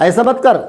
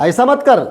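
No difference in how they are said.

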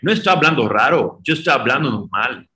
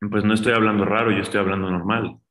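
First: It is said in Baltasar's over-the-top accent. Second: It is said in his everyday Mexican Spanish.

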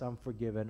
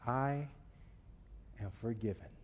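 First: It is said in a casual, offhand tone. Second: It is said in a slow, earnest tone. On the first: The speaker does not think about what the words mean. The speaker calls it wrong. "when you say it like that, you don't know what you are saying" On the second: The speaker is moved by what the words mean. The speaker calls it right. "Think about those words"

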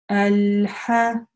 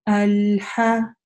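The two takes are said the same way.

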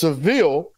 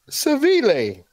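First: The name is said with an English pronunciation. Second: The name is said with a Spanish pronunciation. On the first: This is how the speaker assumed it was said. The speaker calls it wrong. "I thought it was Seville" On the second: This is how it is actually said locally. The speaker calls it right. "But come to find out, it's Seville"

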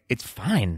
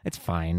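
First: It sounds sincere and genuinely pleased. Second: It sounds grudging and dismissive.

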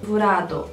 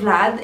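First: The name ends with an added vowel sound. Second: The name ends in a consonant sound.

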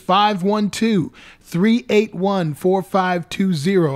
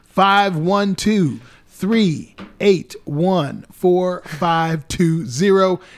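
First: It is said at a faster pace. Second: It is said at a slower pace.

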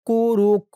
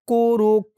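No difference in how they are said.

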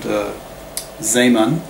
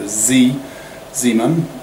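First: The name is pronounced in a non-American way. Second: The name is pronounced the American way.

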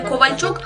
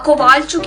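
First: The stress sits on the standard syllable. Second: The stress is moved to another syllable. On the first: The speaker calls it right. "не вміють правильно поставити наголос... не Ковальчук" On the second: The speaker calls it wrong. "а Ковальчук"

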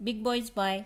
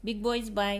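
No difference in how they are said.

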